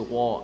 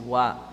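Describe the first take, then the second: First: The w sound is heavy, with a full mouth. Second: The w sound is light, with an empty mouth. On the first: The speaker calls it wrong. "you don't say wa" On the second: The speaker calls it right. "waw is an empty mouth letter"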